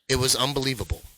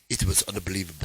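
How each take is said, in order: First: It is said in his normal voice. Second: It is said in an imitation of the nurse's voice.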